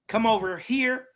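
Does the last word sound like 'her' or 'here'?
here. The last word sounds like 'here'. This is how people up north say it. "He he say here up up north"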